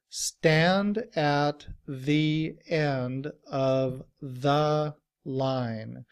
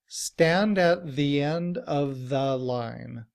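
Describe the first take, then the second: First: The sentence is said very slowly. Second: The sentence is said at normal speed.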